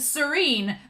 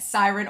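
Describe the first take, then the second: First: The name sounds like the word 'serene'. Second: The name sounds like the word 'siren'. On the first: This is how the English dub says it. "as the English dub says it" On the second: This is how the speaker has been saying it. "I thought it was Siren"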